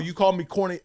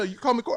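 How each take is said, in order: First: It sounds openly angry and confrontational. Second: It sounds falsely sweet with a hidden jab. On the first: The speaker is openly attacking her. The speaker calls it wrong. "if it was that f you attitude" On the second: The speaker gets back at her while seeming friendly. The speaker calls it right. "But the passive aggressive, like"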